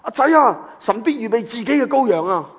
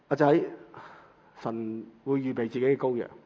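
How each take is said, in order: First: It is said in a confident, assured tone. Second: It is said in a hesitant, unsure tone. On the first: The father fully trusts that God will provide. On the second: The father is unsure whether God will provide.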